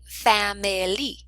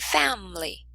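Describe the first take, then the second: First: Every syllable and sound is pronounced fully. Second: The sounds run together, dropping a syllable. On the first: The speaker calls it wrong. "We do not say" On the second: The speaker calls it right. "We say"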